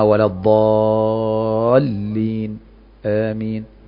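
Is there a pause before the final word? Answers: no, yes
yes. A short pause comes before amin. The speaker calls it right. "يبقى سكت"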